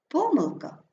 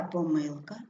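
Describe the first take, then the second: First: ПОмилка, first syllable stressed. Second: ПоМИЛка, middle syllable stressed; stress on second syllable. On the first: Teacher showing double stress, stress on ПО. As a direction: hit ПО in Помилка. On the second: Teacher showing double stress, stress on МИЛ. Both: Shown as a demonstration. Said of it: "слова із подвійним наголосом".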